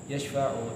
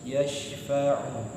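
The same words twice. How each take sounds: First: The word is said quickly and rushed. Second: The word is said slowly with held sounds. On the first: The speaker calls it wrong. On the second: The speaker calls it right. "nggak boleh cepet-cepet, harus yashfa'u"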